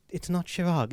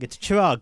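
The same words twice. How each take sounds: First: "Chirag" with a soft sh, being dismissed; wrong pronunciation. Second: "Chirag" with a hard ch, louder, insisting; corrected pronunciation. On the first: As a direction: say "Chirag" as "Shirag" to reject it. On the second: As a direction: stress "Chirag" with ch as in church. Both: Retold or imitated. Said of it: "Get your name right".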